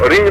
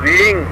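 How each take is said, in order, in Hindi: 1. स्वर छोटा है, जैसे i। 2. स्वर लंबा है, जैसे ee। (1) "रिंग नहीं है, मैंने H R आई N G नहीं बोला है" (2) "डबल ई एन जी"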